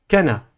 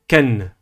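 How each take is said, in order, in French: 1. Le n est suivi d'une voyelle a. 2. Le n n'est suivi d'aucune voyelle. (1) "ni Kana" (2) "mais Ken ... Sans voyelle"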